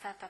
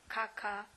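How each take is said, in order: First: The word is said with t sounds. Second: The word is said with k sounds. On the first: The speaker calls it right. "zamiast tata" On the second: The speaker calls it wrong. "powie kaka"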